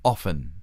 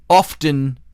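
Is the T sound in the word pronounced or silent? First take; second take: silent; pronounced. First: The T sound is silent in the middle. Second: The T sound is pronounced in the middle. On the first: The speaker calls it right. "it's pronounced often" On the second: The speaker calls it wrong. "Often is not a word. It's not the way you pronounce it"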